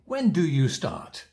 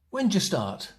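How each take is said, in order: First: The auxiliary is said fully as a separate word. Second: The auxiliary is reduced and joined to when. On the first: The speaker calls it wrong. "we don't say" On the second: The speaker calls it right. "We'll say"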